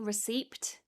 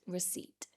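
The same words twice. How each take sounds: First: A P sound is pronounced before the final T. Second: No P sound is heard before the T. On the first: "You may hear some people pronouncing the P" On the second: "we ignore the P and we just say receipt"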